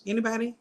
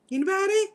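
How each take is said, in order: First: Said in the usual way. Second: High, loud call into the void. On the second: Real, not acted. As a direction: call out louder, hoping for an answer. Calling out to viewers online.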